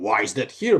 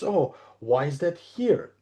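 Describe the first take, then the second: First: It sounds accusing and blaming. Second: It sounds curious and open.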